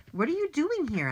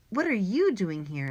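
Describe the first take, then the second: First: High-pitched puzzled question; surprised question. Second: "you" punched in a returned question; stress on YOU. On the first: Boy finding his friend on the roof, surprised question. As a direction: ask it in surprise. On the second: Boy turning the question on his friend, stress on "you". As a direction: throw it back, leaning on "you". Turns the same question back. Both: A narrator's reading.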